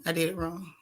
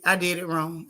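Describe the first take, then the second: First: Repeated much softer under the breath; soft self-correction. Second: Said in the usual way. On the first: Shown as a demonstration. Streamer catching her own mistake, repeating it softly. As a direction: drop the volume, half to yourself.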